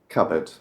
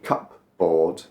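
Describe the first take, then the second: First: The p sound is silent. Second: The p sound is pronounced.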